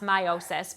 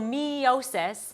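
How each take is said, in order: First: The E sound is said in an ordinary way. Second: The E sound is drawn out and exaggerated. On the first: "it should be pronounced meiosis" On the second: "is how I always pronounce it, like I like really enunciate the E"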